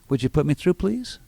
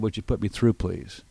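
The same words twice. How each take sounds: First: The pitch rises at the end on please. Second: The pitch rises on through, then falls on please. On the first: The caller is begging to be put through. The speaker calls it wrong. "the weak salesperson would say" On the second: The caller expects to be put through. The speaker calls it right. "my voice went up at through and down at please"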